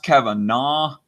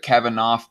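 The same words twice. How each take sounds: First: The name ends with an 'aw' sound. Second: The name ends with an 'aff' sound. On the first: "I've heard it pronounced Kavanaugh" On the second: "It's spelled like laugh in the, the last few letters here"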